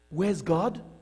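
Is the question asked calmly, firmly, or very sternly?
calmly. It is asked in a calm, plain tone.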